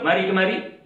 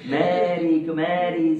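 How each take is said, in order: First: It is said in a plain, neutral tone. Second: It is said in a soft, seductive tone. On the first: It is an ordinary invitation to come closer. "Tak ada masalah" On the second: It is an invitation to an improper act. "Perkataan tu intonasinya ada masalah"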